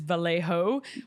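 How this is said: The name is said with an English pronunciation. It avoids sounding pretentious or mocking. "acceptable, like British slash, I guess, English speaking way to say it"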